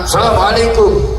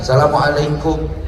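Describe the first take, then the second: First: It is said with a high, raised pitch. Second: It is said with a low, subdued pitch. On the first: "nadanya tinggi sambil mengangkat kedua tangan" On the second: A student humbly greets a revered teacher. "sambil membungkukkan badan"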